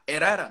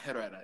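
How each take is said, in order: First: The name is pronounced with Spanish sounds. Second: The name is pronounced with English sounds. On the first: The speaker calls it right. "It's Espanol" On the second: The speaker calls it wrong. "not Herrera"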